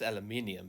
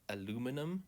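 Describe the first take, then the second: First: It is said with five syllables, keeping the i. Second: It is said with four syllables, leaving out the i. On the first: This is the way that follows the spelling. The speaker calls it right. "it's aluminium because there's a, clearly an I here" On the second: This is the American way of saying it. The speaker calls it wrong. "Americans say uh, uh, aluminum"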